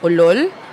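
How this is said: It sounds like a surprised question.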